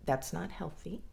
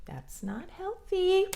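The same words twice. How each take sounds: First: Said in the usual way. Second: Much higher, stressing healthy; that's not healthy squeaked up high; mock high emphatic. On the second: Shown as a demonstration. A speaker mockingly repeats the warning higher.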